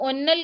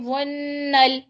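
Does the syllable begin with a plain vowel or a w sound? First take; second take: plain vowel; w sound. First: The syllable begins with a plain vowel, no w. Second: The syllable begins with a clear w sound. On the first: The speaker calls it wrong. "वन्नल को उन्नल कह दिया" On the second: The speaker calls it right. "वाव का साउंड लाइए"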